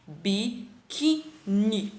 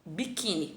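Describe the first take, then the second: First: Biquíni said very slowly, leaning on the middle syllable quí; slow teaching demo of Biquíni with quí stressed; stressed syllable drawn out. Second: Said in the usual way. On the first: Shown as a demonstration. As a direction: stretch biquíni out to show where the stress falls. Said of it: "a tônica tá aqui". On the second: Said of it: "Aqui eu tenho a palavra".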